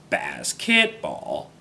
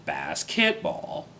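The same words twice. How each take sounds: First: Basketball slow, lower, wrong tones. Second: Basketball slow and lower, rising end; wrong tones. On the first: Learner demonstrating basketball with wrong tones. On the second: Learner giving another wrong-tone basketball. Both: Shown as a demonstration. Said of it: "the wrong tones".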